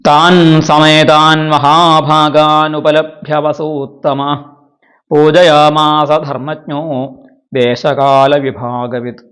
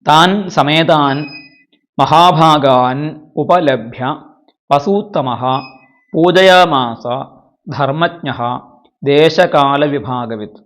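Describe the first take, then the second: First: The words are run together with sandhi joins. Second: The words are split apart with sandhi undone.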